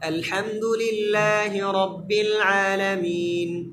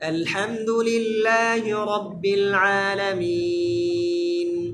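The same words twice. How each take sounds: First: The final long vowel is held briefly. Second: The final long vowel is drawn out longer. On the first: "এক আলিফ লম্বা করে পড়া কি জায়েজ আপনি যদি এভাবে বলেন" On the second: "আবার যদি তিন আলিফ করে পড়েন সুন্দর"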